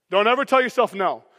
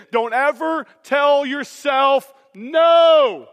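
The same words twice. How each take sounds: First: Said in the usual way. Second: Slow, louder, "no" stretched and driven down; preacher hammering his ironic advice home; emphatic preaching. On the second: Acted. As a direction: hammer each word home.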